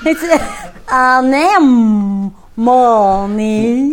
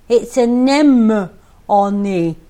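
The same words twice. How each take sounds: First: It is said in a put-on southern accent. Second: It is said in the speaker's usual accent.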